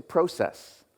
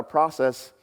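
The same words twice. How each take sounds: First: "process" said the Canadian way, long o as in "go"; slow Canadian "process" with "pro" rhyming with "go"; Canadian pronunciation. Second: Said in the usual way. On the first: Shown as a demonstration. Pastor showing friends' Canadian way, slowed pronunciation. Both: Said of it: "life's not a process, it's a process".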